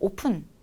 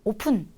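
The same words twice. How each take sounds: The two takes are said the same way.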